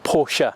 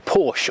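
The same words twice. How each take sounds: First: The name is said the German way. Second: The name is said the English way. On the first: This is how commenters expected it to be said. "and not Porsche" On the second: This is how the speaker habitually says it. "I'm going to say Porsche all through this review"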